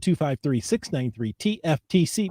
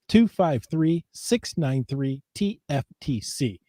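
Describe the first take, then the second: First: The number is read quickly. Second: The number is read slowly. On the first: The speaker calls it wrong. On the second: The speaker calls it right.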